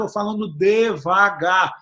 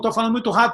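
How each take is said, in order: First: It is said slowly. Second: It is said fast.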